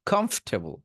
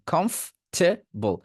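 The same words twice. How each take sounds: First: comfortable as one joined word "khomf-te-bol"; parts joined up. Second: comfortable as "khomf... te... bol", slow and high; slow, in three parts. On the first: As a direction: run the three parts of comfortable together, high pitched. (Comfortable একসাথে জুড়ে) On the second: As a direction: draw out each part of comfortable. (Comfortable ধীরে, ভাগ করে) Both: Shown as a demonstration. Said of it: "এবার তিনটা একসাথে বলেন".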